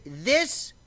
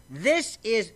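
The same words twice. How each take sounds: First: "this" drawn out on a rise; "this" rising and held before the point; rising repeat. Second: THIS hit higher and louder; "This" punched high and loud; emphatic repeat. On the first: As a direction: lift "this" up as a hanging question. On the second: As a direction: lean hard on THIS. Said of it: "this is my crack". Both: Real, not acted.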